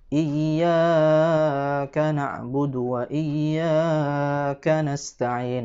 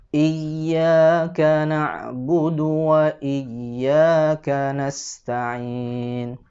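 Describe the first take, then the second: First: The vowel in iyyaka is held too long. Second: The vowel in iyyaka is held one beat. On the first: The speaker calls it wrong. "ini terlalu panjang" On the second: The speaker calls it right. "Cukup satu ayunan"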